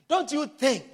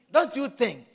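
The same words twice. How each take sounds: The two takes are said the same way.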